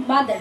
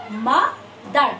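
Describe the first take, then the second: First: Said in the usual way. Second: mother split slowly in two, a pause after মা; pause between syllables. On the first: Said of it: "একসঙ্গে mother বলতে পারবে না". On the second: Shown as a demonstration. Teacher showing students a two-syllable word, mother with a pause in the middle. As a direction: break mother into two separate beats. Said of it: "একটা pause পড়ে যায়".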